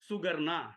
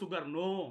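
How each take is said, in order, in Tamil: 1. பெயர் 'a' உயிரெழுத்தில் முடிகிறது. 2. பெயர் 'o' உயிரெழுத்தில் முடிகிறது. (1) "சுகர்னா கர்னான்னு நம்ம சொல்றோம்" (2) "ஓன்னு முடியுது"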